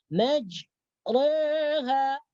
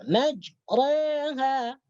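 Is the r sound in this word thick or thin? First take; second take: thick; thick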